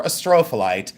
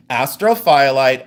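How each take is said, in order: First: "astrophyllite" as uh-STRO-fuh-lite; "astrophyllite" rhythm like a-STROPH-a-lite; second pronunciation. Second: "astrophyllite" as AS-tro-FY-lite; "astrophyllite" split as astro plus FY-lite; first pronunciation. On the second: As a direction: say "astrophyllite" with a long FY in the middle. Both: Shown as a demonstration. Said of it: "astrophyllite or astrophyllite".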